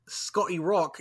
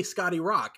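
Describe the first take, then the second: First: Scotty with a British rounded o and crisp t; attempted British accent. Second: "Scotty Rock" with American open vowels; American accent. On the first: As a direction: say "Scotty Rock" the Northern English way. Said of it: "can't say Scotty Rock in an American accent". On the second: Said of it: "I just have to say". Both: Shown as a demonstration.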